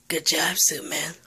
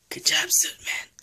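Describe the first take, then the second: First: Said in the usual way. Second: "Good job, Suit Man" whispered very high and squeaky; squeaky praise. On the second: Acted. The player praises Suit Man again in a very high squeaky whisper. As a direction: pitch it way up like a delighted squeak.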